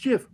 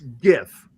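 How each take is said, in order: First: It begins with a soft J sound. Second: It begins with a hard G sound. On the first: The format's creator says it this way. The speaker calls it wrong. "the guy who created it says it's GIF" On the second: The word comes from graphic. The speaker calls it right. "hard G"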